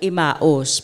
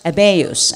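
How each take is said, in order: First: The name is said with a Tagalog pronunciation. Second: The name is said with its standard pronunciation. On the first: "Kung sa Tagalog" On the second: "ang pronunciation talaga niyan is Emmaus"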